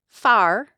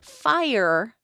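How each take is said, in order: First: The vowel is flattened, sounding like 'far'. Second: The vowel glides, sounding like 'fire'. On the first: "Fire becomes far" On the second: "Fire becomes far"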